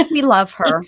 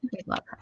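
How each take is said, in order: First: Said in the usual way. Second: Unvoiced whispered aside. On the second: Shown as a demonstration. Whispering an affectionate aside about Beth. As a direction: breathe it as a secret.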